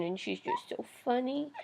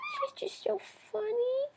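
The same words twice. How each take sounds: First: Said in the usual way. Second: High cooing repeat; pet talk. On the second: Real, not acted. Owner cooing to the bird about her, high voice.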